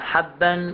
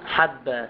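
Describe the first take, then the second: First: The word ends with an n sound. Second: The word ends with a long a vowel. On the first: The speech continues without stopping. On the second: The speaker stops on this word.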